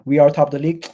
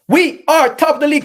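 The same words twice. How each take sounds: First: Said in the usual way. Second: High, loud victory yell; triumphant shout. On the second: Real, not acted. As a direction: belt it like a terrace chant. Fan chant to stream chat.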